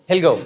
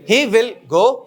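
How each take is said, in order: First: Will is shortened and joined to he. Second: Will is said as a separate full word.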